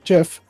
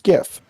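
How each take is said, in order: First: The word starts with a soft J sound. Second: The word starts with a hard G sound. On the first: This is how its creator says it. The speaker calls it wrong. "despite the creator calling it GIF" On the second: The G stands for graphics. The speaker calls it right. "It is GIF. Because the G in GIF stands for graphics"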